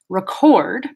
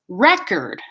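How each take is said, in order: First: The stress is on the second syllable. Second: The stress is on the first syllable. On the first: It is used as a verb. "record is the verb, stress on second syllable" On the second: It is used as a noun. "stress on first syllable. That's the noun"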